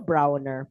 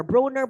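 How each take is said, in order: First: "Browner" with an OW, like BROW-ner; settled name pronunciation. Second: "Browner" said with an OH, like BROH-ner; alternative name pronunciation. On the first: Settling on the general's surname, "Browner" said as BROW-ner. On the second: Unsure of the general's surname, "Browner" tried as BROH-ner. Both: Shown as a demonstration. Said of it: "Browner ba to".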